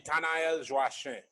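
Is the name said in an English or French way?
French. The name is said in a French way. It is how the family says the name. "the way my mother would say"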